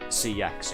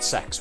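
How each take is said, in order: First: The name is said as separate letters. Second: The name is said as one word. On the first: "pronounce it C X" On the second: "I pronounce it sex"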